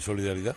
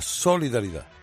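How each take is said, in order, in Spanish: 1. La primera sílaba no recibe énfasis extra. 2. La primera sílaba recibe énfasis extra. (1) "¿no puede usted decir solidaridad?" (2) "tenemos tendencia a siempre acentuar la primera sílaba. Todo el mundo dice la solidaridad"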